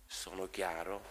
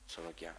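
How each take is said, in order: First: "Sono chiaro?" asked with a rising tune on chiaro; questioning tune. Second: "Sono chiaro." said as a statement, falling and very soft on chiaro; settled statement. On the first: Priest asks the congregation if he was clear, rising tune on "chiaro". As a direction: ask "Sono chiaro?" as a real question, lifting chiaro at the end. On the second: Priest answers his own question, falling softly on "chiaro". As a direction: answer yourself with "Sono chiaro.", letting chiaro drop away quietly. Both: Shown as a demonstration.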